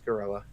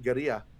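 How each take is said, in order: First: It is said with plain English sounds. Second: It is said with Spanish-style sounds. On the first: The speaker calls it right. "but no, it's it's it's Gorilla" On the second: The speaker calls it wrong. "it looks like a Spanish words... it gets rolled"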